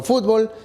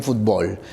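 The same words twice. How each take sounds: First: Fútbol stressed on the first syllable, FÚT-bol; fútbol with the weight up front; first stress variant. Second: Fútbol stressed on the last syllable, fut-BOL; fútbol landing on the final syllable; second stress variant. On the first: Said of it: "En el diccionario tú puedes encontrar". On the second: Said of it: "también fútbol". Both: Shown as a demonstration.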